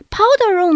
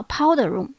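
First: Powder room said higher and louder, stress on powder; teacher repeats "powder room" emphatically. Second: Said in the usual way. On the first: Shown as a demonstration. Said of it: "叫powder room". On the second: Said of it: "powder room 呢".

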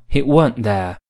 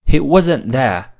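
First: West Country "weren't" in place of "wasn't"; West Country English. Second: Said in the usual way. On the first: Shown as a demonstration. Teacher showing West Country grammar to learners, West Country accent. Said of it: "而West Country英语中". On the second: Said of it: "通常我们说".

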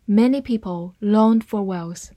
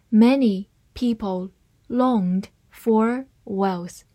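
First: Said in the usual way. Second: Slow, careful reading of each word. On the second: Shown as a demonstration. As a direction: read it slowly for learners. (慢速朗读) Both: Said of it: "慢慢来读".

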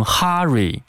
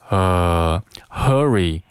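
First: "hurry" with an open ah, "HAH-ree"; learners' mispronunciation. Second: Slow "hurry" with a central uh from deep down; breath from the belly. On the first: Teacher imitates students' error, "hurry" as "hah-ree". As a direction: say "hurry" wrongly as "harry" with a wide ah. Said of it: "很多同学都会把这个hurry". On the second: Teacher corrects students, slow "hurry" with a deep uh. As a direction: hold "呃", then say "hurry" as "HUH-ree". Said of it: "从丹田运出一股气息". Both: Shown as a demonstration.

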